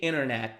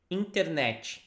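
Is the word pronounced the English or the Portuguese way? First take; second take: English; Portuguese. First: The word is pronounced as in English. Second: The word is pronounced as in Portuguese. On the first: Listeners may not understand it. The speaker calls it wrong. "Do not say internet because people are not going to understand" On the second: Listeners will understand it. The speaker calls it right. "You have to say internet"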